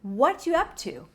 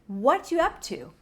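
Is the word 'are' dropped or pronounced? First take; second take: dropped; dropped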